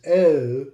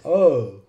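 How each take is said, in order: First: O with a fronted "eh-oo" glide; O, fronted regional variant; regional long O. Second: O as a rounded "oh-oo"; O, the "oh" variant; regional long O. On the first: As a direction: say O as "eh-oh", drawn out. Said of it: "some places is O". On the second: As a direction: say O with a back, rounded glide. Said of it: "in some places is O". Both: Shown as a demonstration.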